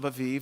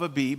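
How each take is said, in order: First: The word is said with v sounds. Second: The word is said with b sounds. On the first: "they pronounce them with V's" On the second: "It's B's"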